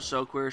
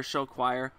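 First: "show queer", the second word rhymed with "here" on purpose; deliberate "show queer" for "show choir"; show queer pun. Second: Said in the usual way. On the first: Shown as a demonstration. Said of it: "I call it show queer because". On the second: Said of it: "I call it show queer".

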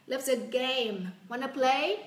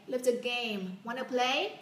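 Both takes have the same delivery.

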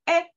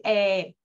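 First: Clipped quick E sound; quick short E. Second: Drawn-out E sound; long drawn E. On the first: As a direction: say the E short and fast. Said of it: "una E rápida". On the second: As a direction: stretch the E long. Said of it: "no voy a alargar y decir E". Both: Shown as a demonstration.

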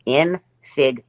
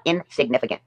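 First: "Insignificant" syllable by syllable, a long pause after each; real slow. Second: Said in the usual way. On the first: Shown as a demonstration. Mocking a rival with a big word, real slow. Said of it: "gonna say it real slow". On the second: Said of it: "I'll say it again".

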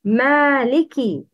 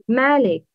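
First: "Maliki" with the final i sounded; kaf with kasra. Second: "malik" cut off without final i; missing kasra. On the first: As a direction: say "Maliki" with a clear ki at the end. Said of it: "Kaf should be pronounced with kasra". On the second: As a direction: say "malik", dropping the kasra after k. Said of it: "The wrong is". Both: Shown as a demonstration.

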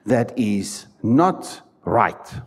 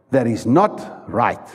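First: Each word slow, "not" leaned on; slow stress on not. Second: A little less slow, "not" still leaned on; stress on not. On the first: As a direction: drag out "not" so it lands heavy. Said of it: "emphatic slow". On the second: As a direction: repeat it, "not" still heavy. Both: Shown as a demonstration.

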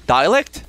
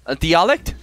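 First: "Dialect" with a first syllable like "die", questioning; alternative pronunciation. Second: "dialect" with a first syllable like "dee", questioning; unsure pronunciation. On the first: Streamer testing the English term, "Dialect" as die-uh-lekt, questioning. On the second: Streamer unsure of the English term, "dialect" as dee-uh-lekt, questioning. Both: Real, not acted. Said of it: "I don't know what's the pronunciation".

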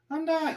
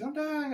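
First: High falsetto squeak, much higher; a reprise of the tiny dying roach; cockroach cry. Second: The next inmate squeaking like a roach; cockroach cry. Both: Pretend. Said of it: "A whole string of dudes".

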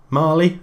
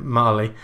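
First: Mali said as a tentative question, rising; Mali, pitched up in doubt; unsure pronunciation. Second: Said in the usual way. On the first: Real, not acted. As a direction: try out "Mali" with an upward, questioning lilt. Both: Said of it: "I think that's how you pronounce it".

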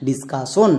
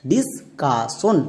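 First: Said in the usual way. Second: discussion very slowly in parts, dis... ka... shon; syllable by syllable. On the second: Shown as a demonstration. Teacher has pupils read along, discussion slowly syllable by syllable. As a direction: break discussion into separate, drawn-out syllables. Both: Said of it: "একসঙ্গে উচ্চারণ করো".

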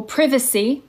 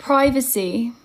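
First: Privacy with a short i, PRIV-uh-see; the other way to say it. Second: Privacy with a long i, PRY-vuh-see; one way to say it. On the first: Teacher offering viewers the alternative, privacy said PRIV-uh-see. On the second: Teacher showing viewers the first way to say it, Privacy said PRY-vuh-see. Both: Shown as a demonstration. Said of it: "or privacy".

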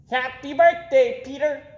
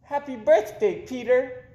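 First: High, loud squawky parrot repeating. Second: Put-on high girlish birthday greeting; little girl's happy birthday. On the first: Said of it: "repeated the parrot". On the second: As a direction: greet him brightly, much higher. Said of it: "said Amy". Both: A narrator's reading.

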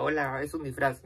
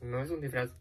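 First: A sarcastic mock statement. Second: Said in the usual way. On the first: Shown as a demonstration. Vlogger sarcastically mocking the man's idea that she is in costume. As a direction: say it as if stating the obvious, mocking.

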